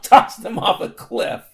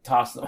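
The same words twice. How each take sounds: First: A loud, breathy mock yell for comic effect. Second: Said in the usual way. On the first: Podcaster jokes about tossing robots, mock yell. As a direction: bursts out louder on the repeat. Repeats phrase for comic emphasis.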